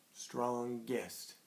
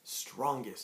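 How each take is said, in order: First: "Strongest" softer, slowly in two beats, strong-gest; split into syllables. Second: Said in the usual way. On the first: Shown as a demonstration. Teacher shows children the two syllables, "Strongest" slowly broken in two. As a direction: say "Strongest" syllable by syllable, both parts distinct. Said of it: "Hit two times". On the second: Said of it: "and we say the word".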